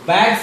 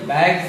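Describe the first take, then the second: First: The word ends with an s sound. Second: The word ends with a z sound. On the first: The speaker calls it wrong. "बैग्स नहीं पढ़ेंगे" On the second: The speaker calls it right. "ये बैग्स है"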